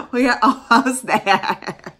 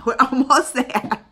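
First: Loud slow emphasis on we; emphatic. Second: Said through a laugh, slower. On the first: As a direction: plant each word firmly, louder. Repeats goal with emphasis. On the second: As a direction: chuckle it out hopefully. Laughs about subscriber count. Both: Real, not acted.

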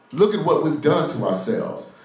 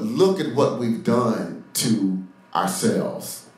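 First: Higher-pitched, insistent preaching; emphatic repeat. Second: Drawn out with pauses between phrases; slow right down, let each part land; slow emphasis. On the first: Preacher presses the congregation on their self-deception, emphatic and raised in pitch. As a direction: drive it home in one higher, unbroken phrase. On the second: Preacher confronts the congregation with their self-deception, slow and weighty. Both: Real, not acted.

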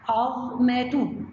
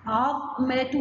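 First: عظمة split slowly into syllables. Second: Said in the usual way. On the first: Shown as a demonstration. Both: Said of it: "يبقى ننطق مع بعض ونقطع".

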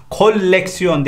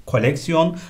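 First: KOLEKSIYON with a long l, "kol-leksiyon"; wrong double L. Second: KOLEKSIYON with one short l; correct single L. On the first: (koleksiyon çift L ile) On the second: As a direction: say koleksiyon as ko-lek-si-yon. (koleksiyon tek L ile) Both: Shown as a demonstration. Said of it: "değil".

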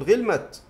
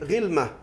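First: غلمت as ghilmat, t sounded; pausing on t. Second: غلمة as ghilmah, ending in h; pausal h. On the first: Teacher showing the rare option, غلمت pronounced ghilmat. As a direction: stop غلمت on a still t. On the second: Teacher giving the broken plural, غلمة pronounced ghilmah. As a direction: end غلمة on h, with no t. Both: Shown as a demonstration. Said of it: "فقل غلمت".

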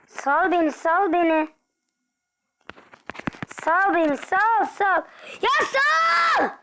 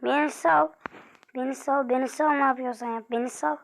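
First: Rising louder and higher to a scream; plead, then explode; building to a shout. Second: Said in the usual way. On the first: Real, not acted. Begging the enemy to let go, building to a shout.

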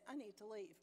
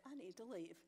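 First: Soft, even and sweet; sweet and calm. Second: Soft, level calm. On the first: Telling the workmen she's leaving, sweetly calm. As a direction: keep it gentle and calm though angry. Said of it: "Very sweetly, I might add, very calmly". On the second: Telling the workmen again, calmly and softly. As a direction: say it gently, holding anger back. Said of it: "very calmly". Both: Retold or imitated.

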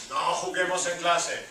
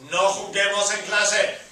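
First: Said in the usual way. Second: Louder, firm command; emphatic. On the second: Shown as a demonstration. Teacher tells students not to play, firm and loud. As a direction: insist on it. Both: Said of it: "teacher repeats command".

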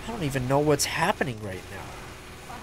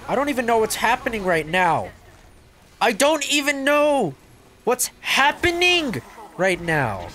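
First: Said in the usual way. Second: High, loud, stretched-out disbelief; bewildered exclaiming. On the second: Real, not acted. Escalating bewildered repeat.

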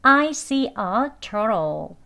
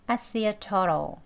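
First: "I see a turtle" slow, each word separate and full; careful learner pronunciation. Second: "I see a turtle" linked, "I" reduced to "ah"; conversational pronunciation. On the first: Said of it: "배우는 발음으로". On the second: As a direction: run it together with a weak "turtle". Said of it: "turtle 같이 들립니다". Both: Shown as a demonstration.

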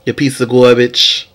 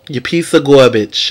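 First: Said in the usual way. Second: "You piece of garbage" in a New York accent, "garbage" said "gahbidge"; slow, tough New York accent on "You piece of garbage"; mock New York accent. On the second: Shown as a demonstration. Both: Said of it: "in my New York accent".

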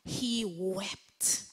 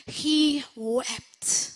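First: Said in the usual way. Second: He wept said louder, with sorrow; sorrowful emphasis. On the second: Shown as a demonstration. Pastor dwelling on Peter's grief, sorrowful emphasis. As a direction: let the grief sit on "He wept".

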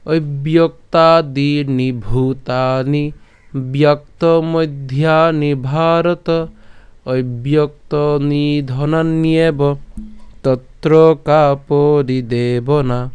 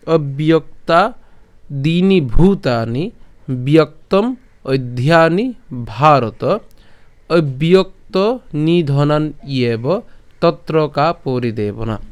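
First: Slow melodic chant of the shloka; sung Sanskrit verse; chanted recitation. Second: Slow, careful spoken Sanskrit verse; plain spoken recitation. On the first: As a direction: intone it in a drawn-out chant. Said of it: "যদি সুর করে পাঠ করি". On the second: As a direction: recite each word slowly and clearly. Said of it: "বলছি, তাহলে কেমন হবে". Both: Shown as a demonstration.

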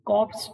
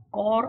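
First: કોર્પ્સ said with the p and s sounded, "korps"; wrong pronunciation. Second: કોર said as a single short syllable, "kor", with no p and no s sounded; correct pronunciation. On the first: Instructor shows trainees the mistaken version, a demo of કોર્પ્સ said as "korps". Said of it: "એવો કરવાને બદલે". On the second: Instructor shows trainees how to say the word right, a clear demo of કોર as "kor". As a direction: say કોર cleanly as "kor", the silent letters dropped. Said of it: "હવે જો આનો ઉચ્ચાર". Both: Shown as a demonstration.

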